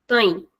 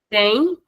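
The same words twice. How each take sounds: First: Tem with the vowel closed and shortened; closed short vowel. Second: Said in the usual way. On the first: Shown as a demonstration. Teacher drilling the plural form, closed tem. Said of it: "shortening the sound of the vowel". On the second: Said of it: "it's the normal sound".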